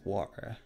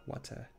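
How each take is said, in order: First: "water" said with a British accent. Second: "water" without the British accent, softer; non-British "water", as the contrast take. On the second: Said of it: "Plus que water". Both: Shown as a demonstration.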